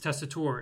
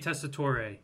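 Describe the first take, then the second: First: The final E is silent, with no extra syllable. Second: The final E is sounded as an extra syllable. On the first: The speaker calls it right. "And it's Testator" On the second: The speaker calls it wrong. "They pronounce the E at the end of your last name"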